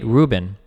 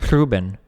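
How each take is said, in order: First: Ruben, loud, with an ordinary English R; unrolled R. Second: Ruben with a trilled first R; rolled R. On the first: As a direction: say Ruben without trilling the R. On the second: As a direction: roll the R that opens Ruben. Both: Shown as a demonstration. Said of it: "You wouldn't roll Ruben".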